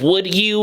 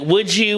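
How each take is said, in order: First: The D and the Y are said separately. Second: The D and Y merge into a J sound. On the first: "instead of would you" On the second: "we use the J sound to replace the D sound"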